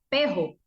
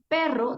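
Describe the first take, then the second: First: The r is replaced by a j sound. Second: The word has its normal r sound. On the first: The speaker calls it wrong. "sustituía la R por la J" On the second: The speaker calls it right. "En lugar de decir perro"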